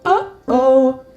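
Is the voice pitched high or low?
high. It is said at a high pitch.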